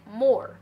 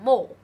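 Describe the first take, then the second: First: The final r sound is clearly pronounced. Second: The final r sound is dropped. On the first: "美式 more" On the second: "英式就係 more"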